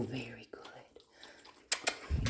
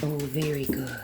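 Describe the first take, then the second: First: Whispered praise. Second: Said in the usual way. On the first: Real, not acted.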